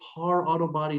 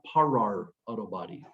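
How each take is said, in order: First: The first word is one short syllable. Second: The first word has an extra rolled syllable. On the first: The speaker calls it right. "it is Par Auto Body" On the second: The speaker calls it wrong. "not Parar Auto Body. The extra R is silent"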